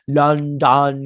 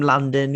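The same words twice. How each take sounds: First: "London" said as "Lun-DON", second syllable stressed; odd pronunciation. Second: Said in the usual way. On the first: Retold or imitated. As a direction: punch out "London" with a full "DON". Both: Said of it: "I don't know why I said it like that".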